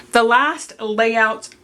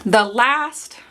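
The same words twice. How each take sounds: First: "last" eased off, the phrase evenly measured; careful, slow retake of "last"; less stress on LAST. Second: "last" leaned on and drawn out, rising; too much weight on "last"; overemphasized LAST. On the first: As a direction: say "last" without punching it. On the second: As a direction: punch and stretch the word "last". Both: Real, not acted. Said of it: "not emphasize the word last too much".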